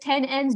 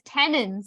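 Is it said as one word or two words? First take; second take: two words; one word. First: It is said as two separate words. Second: It is said as one joined word. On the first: The speaker calls it wrong. "you don't say this word as ten N's" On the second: The speaker calls it right. "You say it as tenons"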